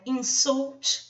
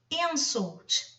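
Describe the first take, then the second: First: The stress is on the last syllable. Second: The stress is on the first syllable. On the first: It is a verb meaning to offend. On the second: It is a noun meaning an offense.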